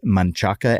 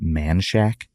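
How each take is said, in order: First: The name is said with Spanish pronunciation. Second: The name is said with English pronunciation. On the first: The speaker calls it right. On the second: The speaker calls it wrong.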